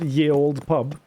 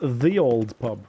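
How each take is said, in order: First: The first word begins with a y sound. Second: The first word begins with a th sound. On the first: The speaker calls it wrong. "It's not ye old pub" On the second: The speaker calls it right. "it's the old pub"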